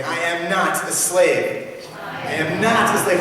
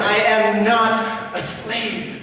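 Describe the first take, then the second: First: Slow, louder "I am not a slave" with NOT stressed; congregational declaration. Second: "I am not a slave" higher, louder, very slow, NOT hammered; emphatic repeat. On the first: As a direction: lead the people in saying "not a slave". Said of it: "will you say that with me?". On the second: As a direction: lead the final, biggest call of "not a slave". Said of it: "One more time". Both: Shown as a demonstration.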